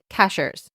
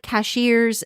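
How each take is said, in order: First: The word is said with a plain 'sh' sound. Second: The word is said with a 'shee' sound. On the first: This is how the place name is said locally. "but they pronounce it cashers" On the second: This is the ordinary word for store clerks. "it's like cashiers at Publix"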